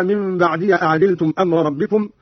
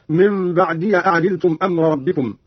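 First: Said in the usual way. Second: بعدي ending in short "ya" before أعدلتم; fatha on ya. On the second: Shown as a demonstration. Teacher shows Qalun's reading, بعدي said "ba'diya". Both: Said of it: "قرأ قالون بفتح الياء هكذا".

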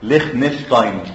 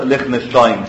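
First: Said in the usual way. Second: ليخنشتاين said slowly, syllable by syllable, as Likh-nish-tain; ليخنشتاين pronounced slowly as Likh-nish-tain for students; careful pronunciation. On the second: Shown as a demonstration. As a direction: spell out ليخنشتاين clearly and slowly for the class. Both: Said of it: "تتنطق ليخنشتاين".

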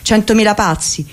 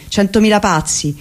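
Both takes have the same delivery.

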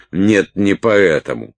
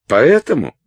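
First: Scornful correction. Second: High, loud accusing question; pressing demand. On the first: Салли сама отвечает, распаляясь. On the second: Салли presses Уилт for his reason, accusing. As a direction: push for the answer sharply. Салли язвительно допрашивает Уилта. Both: A narrator's reading.

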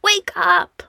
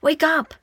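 First: High, breathless whispered Wake up; pleading whisper. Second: High, pressing Wake up; urgent call. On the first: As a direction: beg them in a desperate whisper. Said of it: "Fili begged". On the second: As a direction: rouse them, urgently. Dwarf urging sleeping hobbits. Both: A narrator's reading.

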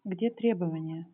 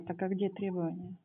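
First: To someone hard of hearing. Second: Barely audible, trailing off; too quiet. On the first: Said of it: "Погромче, пожалуйста, говорите, почётче". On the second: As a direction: ask it almost under your breath. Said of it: "Я не слышу вас". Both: Real, not acted.

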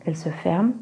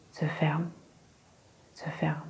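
First: Gentle lulling "elles se ferment"; soothing monotone. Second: "se ferment" repeated, dropping from soft into a hush; fading to a whisper. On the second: Hypnotist repeating "se ferment" to Lady Astwell, fading into a whisper. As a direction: let each "se ferment" fade away to nothing. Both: A narrator's reading. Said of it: "Sa voix était comme un ronronnement monotone, doux, apaisant".

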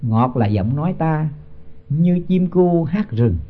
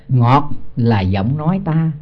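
First: Slow scripture chant; slow verse recitation. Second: Drawn-out chanted verse line; slow scripture chant; slow verse recitation. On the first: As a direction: intone the couplet slowly. Repeats verse line, recited. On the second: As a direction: intone it slowly like scripture. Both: Acted.

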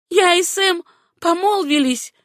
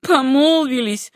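First: High, ringing declaration; proudly raised voice; proud announcement. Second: Slow, loud, raised-pitch mockery; jeering, stretched repetition; mocking echo. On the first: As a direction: announce it with defiant pride. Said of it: "гордо заявила Сюзанна". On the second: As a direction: draw out the word to ridicule it. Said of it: "насмешливо повторила Руфь". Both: A narrator's reading.

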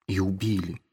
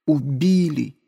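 First: Quiet, falling and subdued; a hushed half-admission. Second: Horrified cry of realization; sudden outcry. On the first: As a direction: let it sink down softly. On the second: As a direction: burst out with it. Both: Acted.

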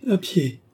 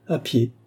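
First: Higher echo with a touch of pity. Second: Brief, matter-of-fact answer; laconic. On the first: Andrée repeats Gilbert's answer, gently pitying. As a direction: repeat it high, in mild compassion. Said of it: "avec une certaine expression de pitié". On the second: Gilbert answers how he came to Paris, laconic. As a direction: give it tersely, without colouring it. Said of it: "dit laconiquement Gilbert". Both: A narrator's reading.

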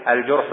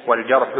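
First: الجرح said "al-jurhu", with a u; rounded u after the jim in الجرح; damma on the jim. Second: والجرح said "wal-jarhu", with an a; fatha on the jim. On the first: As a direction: pronounce الجرح as "al-jurhu", not "al-jarhu". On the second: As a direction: open a after the jim in والجرح. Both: Shown as a demonstration. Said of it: "بضم الجيم لا بفتحها".

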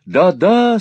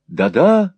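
First: High, loud, fervent agreement; ardent cry. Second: Raised, keen interjection; eager agreement. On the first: Smike cries agreement with Newman's praise, ardently. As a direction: cry out with even more heat. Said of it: "с ещё большим жаром вскричал Смайк". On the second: Smike chimes in with Newman's praise, eager agreement. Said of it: "подхватил Смайк". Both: A narrator's reading.

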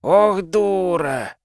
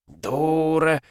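First: Drawn-out high moan, slow; long despairing groan. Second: Despairing groan, pitched up. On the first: (протяжный стон отчаяния) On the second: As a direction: moan it out hopelessly. (стонущим голосом) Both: A narrator's reading. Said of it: "застонал Файлер".

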